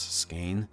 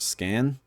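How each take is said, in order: First: The vowel sounds like the one in 'cane'. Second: The vowel sounds like the one in 'can'. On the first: This is how the guidebook says to pronounce it. "it said S K A Y N as how to pronounce Skane" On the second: This is how the narrator pronounced it. "the narrator, just pronounced it Scan"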